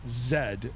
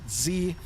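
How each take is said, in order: First: The letter is said as zed. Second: The letter is said as zee. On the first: This is how Canadians say the letter. "We pronounce it Z" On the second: This is how Americans say the letter. "they pronounce it Z"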